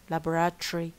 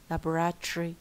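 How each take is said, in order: First: The ending is squeezed into 'tree'. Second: The ending is squeezed into 'tree'.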